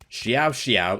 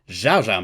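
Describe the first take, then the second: First: It is an attempt at the Mandarin pronunciation. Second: It is said in a stylized, anglicized way. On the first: The speaker calls it right. "I'm trying here" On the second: The speaker calls it wrong. "I'm mispronouncing the Xiao"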